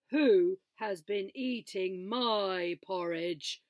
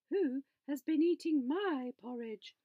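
First: Slow, loud booming papa bear; big gruff father bear, slow and loud. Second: Higher, louder mama bear voice; a lifted, motherly bear voice; mama bear asking, pitched up. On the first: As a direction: boom it out slowly like a big bear. Father Bear voiced in story. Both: A narrator's reading.

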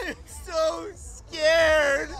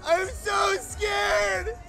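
First: High, very slow sobbing wail; laugh-crying. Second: High, very slow frantic shriek; panicked shriek. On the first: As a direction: sob it out half laughing. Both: Acted. Sitcom meltdown parody, repeated.

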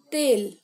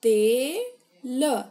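First: Plain. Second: तेल stretched very slowly and louder; drawn-out model word. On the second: Teacher models तेल for pupils, very slow drawn-out louder demo. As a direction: sound out तेल slowly for the class. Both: Shown as a demonstration. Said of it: "त में एक की मात्रा".

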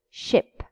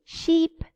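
First: Ship with a quick short ɪ. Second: Sheep with a long ee. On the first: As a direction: clip the i in ship. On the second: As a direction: stretch the ee in Sheep. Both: Shown as a demonstration. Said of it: "You see?".

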